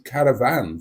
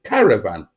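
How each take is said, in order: First: The stress is on the last syllable. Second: The stress is on the first syllable. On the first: This is how northerners say it. "I pronounce the word caravan with the emphasis on the last syllable" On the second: This is how southerners say it. "Southerners pronounce it caravan"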